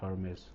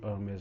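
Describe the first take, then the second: First: The word begins with an audible H sound. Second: The word begins without an H sound. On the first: The speaker calls it wrong. "Not Hermes" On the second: The speaker calls it right. "in French it would be Hermes, right? ... It is of course silent in French"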